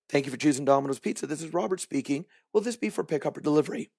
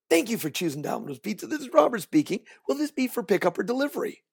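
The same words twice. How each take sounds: First: It is said flatly, without a smile. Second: It is said with a smile and energy.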